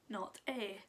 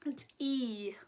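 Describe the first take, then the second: First: A short vowel, like the letter's sound. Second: A long vowel, like the letter's name.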